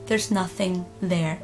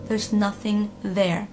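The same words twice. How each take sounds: The two takes are said the same way.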